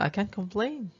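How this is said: It sounds upbeat and pleased. Life is good. "berarti positif ya"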